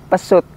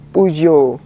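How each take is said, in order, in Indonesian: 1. Nama ini diucapkan seperti kata pesut. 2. Nama ini diucapkan dengan bunyi Prancisnya. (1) "kalau orang-orang dulu malah nyebutnya Pesut" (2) "cara baca yang betul dari merek ini"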